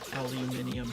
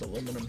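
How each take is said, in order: First: The word is said the British way. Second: The word is said the American way. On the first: This is how it is said in Britain and Europe. "That's that's a British Europe thing" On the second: This is how it is said where the speaker grew up. "It's just aluminum here"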